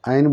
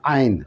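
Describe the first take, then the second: First: The word is said short, like plain letters. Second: The word is said slightly drawn out. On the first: The speaker calls it wrong. "आइन बोल देंगे तो अलीफ ये नून हो जाएगा" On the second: The speaker calls it right. "थोड़ा सा खींचेंगे ... तब ये सही होगा"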